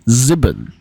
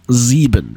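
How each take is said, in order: First: The first vowel is short. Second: The first vowel is long. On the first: This is the Yiddish pronunciation. "but in Yiddish is actually sieben" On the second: This is the German pronunciation. "the word for seven in uh, German is sieben"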